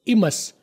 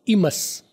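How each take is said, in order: First: The t sounds are dropped. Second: The same.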